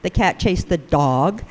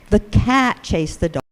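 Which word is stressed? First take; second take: dog; chased. First: The stress falls on the word dog. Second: The stress falls on the word chased.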